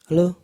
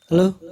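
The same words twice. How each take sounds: The two takes are said the same way.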